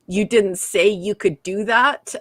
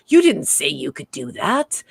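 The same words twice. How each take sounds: First: Said in the usual way. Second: Mock incredulous, swinging down then up; lower, with a questioning rise on THAT; Picard, taken aback. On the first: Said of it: "I have Data on the bridge". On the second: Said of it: "when Picard said".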